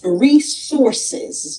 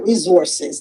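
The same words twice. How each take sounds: First: The middle consonant is a hissing S sound. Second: The middle consonant is a buzzing Z sound. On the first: The speaker calls it right. "It's resources" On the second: The speaker calls it wrong. "not resources. There's no Z in resource"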